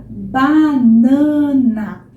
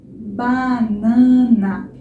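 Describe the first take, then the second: Both takes have the same delivery.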